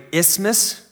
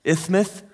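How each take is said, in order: First: Isthmus said with a plain s; isthmus, clear s sounds. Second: Isthmus with a lisp, th for each s. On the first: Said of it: "It's pronounced something along those lines". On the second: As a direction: lisp through Isthmus, ithmuth. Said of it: "supposed to say it with a lisp". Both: Shown as a demonstration.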